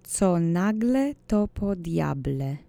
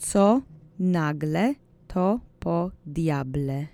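First: The phrase is said at a faster pace. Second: The phrase is said at a slower pace.

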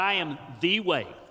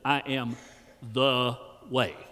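First: It is said in a standard accent. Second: It is said in a Kentucky accent.

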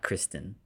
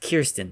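First: The name begins with a 'Kris' sound. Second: The name begins with a 'Kir' sound. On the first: The speaker calls it wrong. "not Kristen" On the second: The speaker calls it right. "It's Kirsten"

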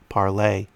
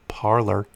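First: The name ends with a French-style 'lay' sound. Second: The name ends with an English-style 'ler' sound. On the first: "I can't see the word P-A-R-L-E-R and not pronounce it parlay" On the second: "people like to call Parlay Parler"

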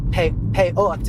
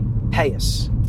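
First: The word ends with a t sound. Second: The word ends with an s sound. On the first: This is the standard form of the word. "they say peot is the word" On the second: "pronounce this one letter, taf, as a tz, as an S"

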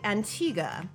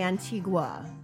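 First: The name is said the English-side way. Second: The name is said the French-side way. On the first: "on the English side, you say Antigua" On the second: "On the French side, you say Antigua"

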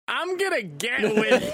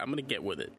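First: It is said with lively enthusiasm. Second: It is said in a tired, flat way.

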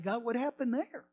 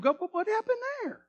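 First: It is said in a normal speaking voice. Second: It is said in a high, squeaky cartoon voice.

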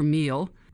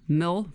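First: The vowel is a long 'ee' sound. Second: The vowel is a short 'i' sound.

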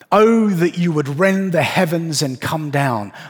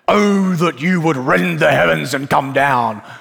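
First: It is read in a plain, ordinary reading voice. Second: It is read in a dramatic, heightened voice.

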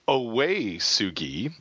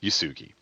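First: The name begins with an 'oh' sound. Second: The name begins with a 'yoo' sound. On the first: This is the official pronunciation. "it is pronounced officially" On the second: This is the casual everyday pronunciation. "but I usually just say"

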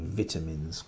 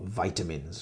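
First: It is said with a British accent. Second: It is said with an American accent.

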